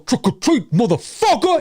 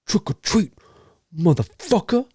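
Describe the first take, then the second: First: It is an exaggerated, over-the-top impression. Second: It is a restrained, understated impression.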